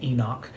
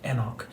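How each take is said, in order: First: The name is said the usual American way. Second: The name is said in a non-American way.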